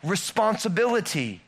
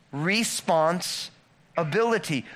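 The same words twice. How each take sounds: First: Said in the usual way. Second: "Responsibility" drawn out slowly, every syllable weighed; slow spelled-out responsibility. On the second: Shown as a demonstration. Pastor slowly unpacking "Responsibility" for the congregation, drawn out. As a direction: lay out "Responsibility" slowly so each part lands. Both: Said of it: "think about the word responsibility".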